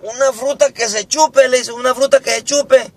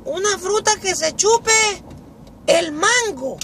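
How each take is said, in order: First: High, lively classroom question; teacher asking. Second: Very high put-on pupil voice; schoolboy answering. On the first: Acted. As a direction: put the question to a pupil, high. Maestra pregunta a José. (maestra preguntando con voz alta) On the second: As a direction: answer the teacher in a squeaky voice. Carlito piensa y responde. (voz muy aguda de alumno)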